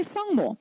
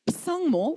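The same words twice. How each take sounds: First: Said in the usual way. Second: "psangmo" with the initial p pronounced; silent prefix sounded. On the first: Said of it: "we say sangmo". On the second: Shown as a demonstration. Lecturer shows class what to avoid, "psangmo" with a sounded p. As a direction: put an audible p before the s in "psangmo". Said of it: "we don't say psangmo".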